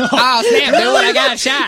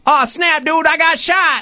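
First: Much higher, laughing mock shout; mocking dying line. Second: Higher, slow dying gasp; dying line. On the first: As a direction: ham up his silly death line. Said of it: "mocking his line". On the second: Retold or imitated. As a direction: deliver a goofy last line as you go down. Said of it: "That was my delivery".

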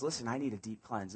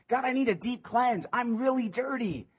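First: Softer, lower, intimate "need"; quiet plea. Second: Pleading cry. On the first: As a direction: confess it under your breath. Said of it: "David says". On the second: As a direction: beg God with rising force. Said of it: "this is what David's saying". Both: Acted.

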